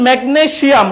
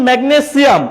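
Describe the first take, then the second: First: "ম্যাগনেসিয়াম" as megne-SHIAM; a sh sound in "ম্যাগনেসিয়াম"; mispronounced SH. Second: "ম্যাগনেসিয়াম" as megne-SIAM; a clean s in "ম্যাগনেসিয়াম"; S pronunciation. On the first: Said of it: "সিয়াম না বলে". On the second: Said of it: "সিয়াম না বলে বলতেছেন". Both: Shown as a demonstration.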